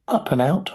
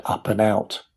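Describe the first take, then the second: First: "Up and out" rising in pitch at the end; puzzled question. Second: Said in the usual way. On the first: A narrator's reading. Charlie querying the label, "Up and out" as a puzzled rising question. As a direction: read "Up and out" higher, as a question. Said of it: "asked Charlie". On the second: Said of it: "The label next to the button said".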